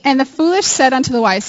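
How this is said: It is read in a put-on British accent.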